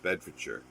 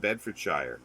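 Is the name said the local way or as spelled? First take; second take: local; as spelled. First: The name is said the local way. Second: The name is said as it is spelled. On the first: A local saying the name. The speaker calls it right. ""No, it's Bedfordshire."" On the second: An outsider reading the name. The speaker calls it wrong. ""Oh, you live in Bedfordshire.""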